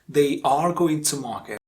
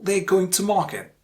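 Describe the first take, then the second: First: They and are are both said in full. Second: They are is blended into one short syllable. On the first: The speaker calls it wrong. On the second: The speaker calls it right.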